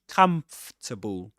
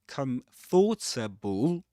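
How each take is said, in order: First: The word is said with three syllables. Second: The word is said with four syllables. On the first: The speaker calls it right. "it's pronounced comfortable as three syllables" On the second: The speaker calls it wrong. "It's not comfortable, even though you see in the spelling four syllables"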